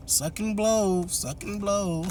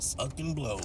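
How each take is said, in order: First: Higher, slow sing-song taunt of "Suck and blow"; mock taunt. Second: A much softer, flat "Suck and blow"; muttered aside. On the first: Imagined mom mocks Mercedes, sing-song and slow. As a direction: drag out "blow" teasingly. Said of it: "she didn't say all that". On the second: Retold or imitated. Narrator repeats the mom's thought, muttered. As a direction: say "Suck and blow" under your breath. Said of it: "that's what she was thinking".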